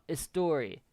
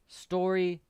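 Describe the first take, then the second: First: An extra vowel sound comes before the s. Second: The word starts directly with the s sound. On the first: The speaker calls it wrong. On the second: The speaker calls it right.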